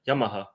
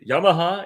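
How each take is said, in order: First: The name is said with a Japanese pronunciation. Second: The name is said with an English pronunciation. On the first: "the Japanese one is also pro- Yamaha" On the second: "is like the pronunciation in English"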